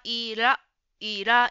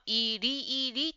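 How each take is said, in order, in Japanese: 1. 各rの後の母音はaです。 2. 各rの後の母音はiです。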